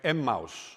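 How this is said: It is pronounced the Nordic way.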